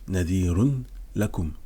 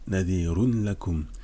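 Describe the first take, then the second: The two takes are said the same way.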